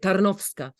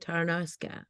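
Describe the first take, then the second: First: It is said with a Polish accent. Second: It is said with an American accent.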